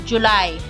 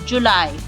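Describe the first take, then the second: No difference in how they are said.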